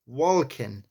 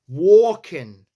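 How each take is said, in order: First: Said in the usual way. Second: "Walking" with the L dropped into a loud "or" sound; New York walking. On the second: Shown as a demonstration. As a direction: punch "Walking" as "wor-king" in a New York accent. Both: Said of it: "the A and the L is like or".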